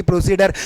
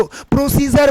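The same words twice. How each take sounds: First: Hard d in प्रोसीडर, pro-see-der; wrong pronunciation demo. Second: J sound in प्रोसीजर, pro-SEE-jer; correct pronunciation demo. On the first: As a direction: say प्रोसीडर with a plain d. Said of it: "ना कि". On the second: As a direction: say प्रोसीजर with j replacing d. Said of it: "बोलना है". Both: Shown as a demonstration.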